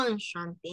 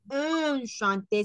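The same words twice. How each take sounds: First: "enchanté" begun with an open nasal "ah"; pronunciación correcta. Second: "enchanté" wrongly begun with a drawn-out "un" sound; pronunciación incorrecta. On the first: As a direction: open the first vowel of "enchanté" to "ah". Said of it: "ah, ah". ("enchanté" con "ah" inicial abierta) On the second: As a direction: say "enchanté" as "unchanté", first vowel closed. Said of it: "no es enchanté". ("enchanté" mal dicho, con "un" inicial) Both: Shown as a demonstration.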